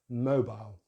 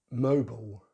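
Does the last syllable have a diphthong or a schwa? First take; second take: diphthong; schwa. First: The last syllable has a diphthong. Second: The last syllable has a schwa. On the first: "in British English ... the I diphthong as we do in British English" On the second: "American English is slightly different ... schwa at the end"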